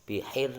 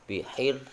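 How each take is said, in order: The two takes are said the same way.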